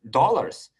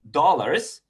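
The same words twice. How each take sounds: First: "Dollars." as a falling, certain answer; firm statement. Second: "dollars" with a rising question tune, drawn out slowly. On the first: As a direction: state "Dollars." flatly as a fact. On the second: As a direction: ask "dollars" as a doubtful question. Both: Retold or imitated. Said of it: "like a question mark".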